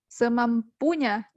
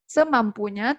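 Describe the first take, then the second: First: The stress is on the third syllable. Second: The stress is on the first syllable. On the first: "kita juga tidak menekan pada suku kata ketiga, pu" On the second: "bukan kita bilang semampunya"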